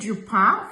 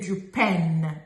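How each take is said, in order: First: The word ends in a nasal vowel, no N. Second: The word ends with a clearly pronounced N sound. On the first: The speaker calls it right. "we say du pain for bread" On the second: The speaker calls it wrong. "We don't say du pain. We don't pronounce the letter N"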